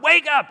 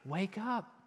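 First: It is said in a harsh, abrupt way. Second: It is said in a soft, gentle way. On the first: The call is a stern demand. The speaker calls it wrong. "it's not wake up" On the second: The call is a loving invitation. The speaker calls it right. "It's wake up, wake up. I've got something for you"

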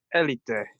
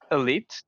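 First: It is said with a Spanish pronunciation. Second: It is said with an English pronunciation. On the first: "in het Spaans is Elite, met het accentje op de E" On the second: "dat is in het Engels uitgesproken natuurlijk"

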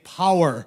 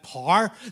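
First: The word is said in a standard English accent. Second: The word is said in a Northern Irish accent. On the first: Listeners from other countries could understand it. The speaker calls it right. "we had to start saying power" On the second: Listeners from other countries could not understand it. The speaker calls it wrong. "every time we said par, they had no idea what we were talking about"

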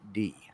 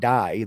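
First: The vowel sounds like 'ee'. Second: The vowel sounds like 'eye'. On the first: The speaker calls it right. "they pronounce that D" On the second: The speaker calls it wrong. "they don't pronounce that die"

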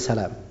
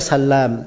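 First: The l sound is single and short. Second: The l sound is doubled and held longer. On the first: This is one of five exceptional names. "kecuali 5 nama" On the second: This is the usual form for narrators.

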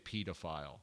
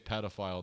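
First: It is said in a British accent. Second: It is said in an American accent. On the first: "they say pedophile" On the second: "we say pedophile"

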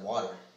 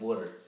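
First: Water is said with a standard accent. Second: Water is said with a Philadelphia accent. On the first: "instead of water" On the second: "they made fun of him for saying water"

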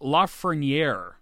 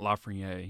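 First: The R sound in the name is pronounced. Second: The R sound in the name is dropped. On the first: The speaker calls it right. "You got to pronounce the R" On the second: The speaker calls it wrong. "It's not Lafreniere"

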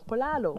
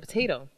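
First: The word is said with L sounds. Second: The word is said with T sounds. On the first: "the T was an L sound" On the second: "she was trying to say potato"

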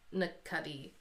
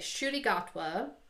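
First: The name begins with an n sound. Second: The name begins with a soft sh sound. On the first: The speaker calls it wrong. "I don't know if that's how you say his name" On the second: The speaker calls it right. "The NC in his name is enunciated like a soft sh"

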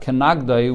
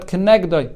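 First: The vowel after the n is a patach. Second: The vowel after the n is not a patach. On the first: She hits him. "You could pronounce it with a patach" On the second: She is opposite him to help him. "it's read"

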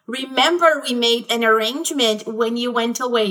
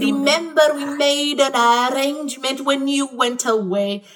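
First: It is said in a plain, ordinary voice. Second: It is said in an exaggerated, caricatured voice.

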